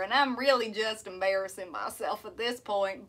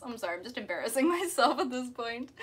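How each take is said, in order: First: Self-mocking country twang; country accent. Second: Sheepish Aussie accent with a laugh; Australian accent. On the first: Streamer embarrassed by the demo for viewers, country accent. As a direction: confess it in a put-on country accent. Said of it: "I can do a country accent". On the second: Streamer embarrassed by the demo for viewers, Australian accent. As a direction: apologize in an amateur Australian accent. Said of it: "my, my Aussie accent". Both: Shown as a demonstration.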